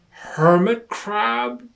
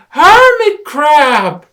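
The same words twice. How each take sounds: First: High, slow questioning; puzzled guess. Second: Very high, very loud, slow cry; excited exclamation. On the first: Lion guesses what the rock is, slow puzzled question. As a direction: guess uncertainly. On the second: Rabbit confirms it is a hermit crab, loud excited cry. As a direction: shout it, certain. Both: Acted.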